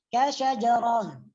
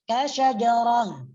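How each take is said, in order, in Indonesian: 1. Kata ini berakhir dengan bunyi h. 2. Kata ini berakhir dengan bunyi h.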